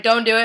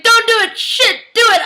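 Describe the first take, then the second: First: Said in the usual way. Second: High, loud panicked shout; yelling frantically at the screen; frantic yelling. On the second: Retold or imitated. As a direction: shriek it in torn desperation. Frantic inner debate, yelled at screen.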